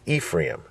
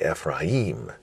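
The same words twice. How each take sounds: First: The stress is on the first syllable. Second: The stress is on the last syllable. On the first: This is the usual English way of saying it. "we say Ephraim" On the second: This is the Hebrew way of saying it. "they would say Ephraim"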